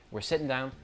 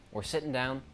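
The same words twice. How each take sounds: The two takes are said the same way.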